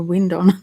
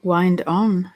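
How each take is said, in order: First: "wind" as in a breeze; short-I wind. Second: "Wind" rhyming with "find"; long-I wind. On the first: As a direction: say "wind" with a short I, rhyming with "pinned". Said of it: "or wind on". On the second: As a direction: say "Wind" with a long I, as in winding a clock. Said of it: "what does it say". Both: Shown as a demonstration.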